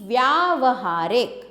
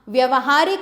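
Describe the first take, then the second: First: The vowel after vy is long. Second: The vowel after vy is short. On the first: The speaker calls it right. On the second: The speaker calls it wrong.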